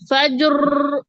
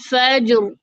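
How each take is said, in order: First: The r is strongly trilled with several taps. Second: The r has only a slight trill. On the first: The speaker calls it wrong. "फज्र ये नहीं होगा" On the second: The speaker calls it right. "हल्की सी मुशाबे तकरार होगी"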